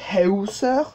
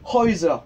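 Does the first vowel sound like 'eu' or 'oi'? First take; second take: eu; oi. First: The first vowel is a rounded 'eu' sound. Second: The first vowel is an 'oi' sound. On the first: The speaker calls it wrong. "ça ne se prononcera pas Heuser" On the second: The speaker calls it right. "ça fait Oi"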